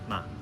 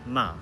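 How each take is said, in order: First: The syllable is light, short, and fading. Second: The pitch falls sharply from high. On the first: "the neutral tone ma, almost like it's fading out" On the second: "Fourth tone ma, it's very sharp, falling"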